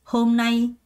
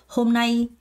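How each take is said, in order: The two takes are said the same way.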